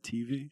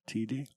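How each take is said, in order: First: The word ends with a clear 'V' sound. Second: The word ends with a 'D' sound. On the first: The speaker calls it right. "Instead of TV" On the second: The speaker calls it wrong. "she says TD"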